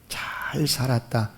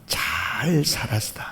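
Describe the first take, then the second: First: It is said with a curving, thankful intonation. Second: The same.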